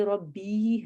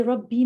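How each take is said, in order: First: "رب بھی" with the final ee drawn out; long final vowel. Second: "رب بھی" with a short final vowel; wrong short ending. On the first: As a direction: stretch the ending of "رب بھی" into a long, slow ee. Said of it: "actually یہ رب بھی ہے". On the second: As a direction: say "رب بھی" quickly, final ee not held. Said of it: "یہ رب بھی نہیں ہے". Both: Shown as a demonstration.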